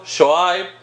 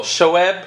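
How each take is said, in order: First: Shoaib said as sho-IBE; first pronunciation. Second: Shoaib said as sho-EB; alternative pronunciation. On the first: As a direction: say Shoaib with an "eye" vowel at the end. Offers two pronunciations of the name. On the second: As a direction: say Shoaib with a short "e" at the end. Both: Shown as a demonstration.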